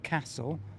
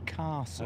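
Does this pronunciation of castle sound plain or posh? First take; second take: plain; posh. First: It is said in a plain, non-posh accent. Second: It is said in a posh accent. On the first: "Mister Duncan pronounces it castle" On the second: "because I'm posh, I would say castle"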